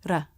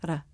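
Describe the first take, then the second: First: The R is a quick tongue tap. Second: The R is a quick tongue tap.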